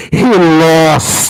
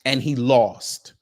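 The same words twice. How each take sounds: First: Lost yelled much louder; yelled punchline. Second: Said in the usual way. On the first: Shown as a demonstration. Streamer redoes his punchline as a loud yell. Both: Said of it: "I do this differently here".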